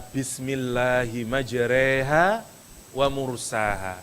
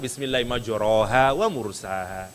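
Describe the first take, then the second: First: Only the first word's vowel is bent toward 'e'. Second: Neither word's vowel is bent toward 'e'. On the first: "Satu dibaca imalah, satu enggak, normal" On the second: "Atau dua-duanya yang normal"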